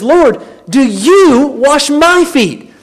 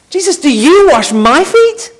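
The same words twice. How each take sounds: First: Slow, stressed "Lord, do you wash my feet?" with weight on "you"; emphatic question. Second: Higher, louder "Jesus, do you wash my feet?" rising on "feet"; emphatic disbelief. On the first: Peter protesting to Jesus, emphatic slow question. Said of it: "that's why he says". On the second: Peter balking at Jesus kneeling, rising emphatic question. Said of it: "Prepositions are emphatic". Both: Retold or imitated.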